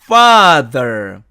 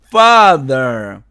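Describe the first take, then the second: Both takes have the same delivery.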